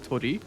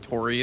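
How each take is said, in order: First: The word is said in a Japanese way. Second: The word is said in an American way.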